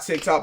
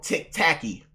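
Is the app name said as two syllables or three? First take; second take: two; three. First: The name is said plainly in two syllables. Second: The name is stretched into three syllables. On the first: The speaker calls it wrong. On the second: The speaker calls it right.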